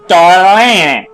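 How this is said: It is said with an exaggerated Italian pronunciation. "put it in an actually good Italian accent, and then overpronounce it"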